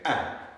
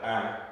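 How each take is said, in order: First: The vowel is said short and loud. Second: The vowel is said plainly, at normal loudness. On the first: "say it short and say it loud" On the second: "instead of ah"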